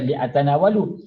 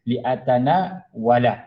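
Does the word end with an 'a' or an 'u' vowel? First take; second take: u; a. First: The word ends with an 'u' vowel. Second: The word ends with an 'a' vowel. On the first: The speaker calls it wrong. "dia tak boleh baca li'atanawalu" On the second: The speaker calls it right. "dibaca dengan fathah"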